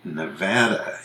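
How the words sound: It is said the way Westerners say it. The speaker calls it right. "Nevada is definitely Nevada in the West"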